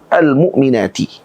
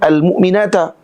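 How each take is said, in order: First: The word ends with an i vowel. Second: The word ends with an a vowel. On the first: The speaker calls it right. "maka dia akan dibaca dengan kasrah" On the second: The speaker calls it wrong. "Tak boleh mu'minata"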